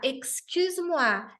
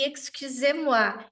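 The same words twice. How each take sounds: First: "excuse-moi" said slowly with a closed final E; informal excuse-moi. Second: "excusez-moi" slowly, with a clear E sound on "-sez"; formal excusez-moi. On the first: Teacher showing a passenger's informal "excuse-moi", slowly. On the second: Teacher showing the formal "excusez-moi" used with passengers, slowly. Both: Shown as a demonstration. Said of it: "se eu falar".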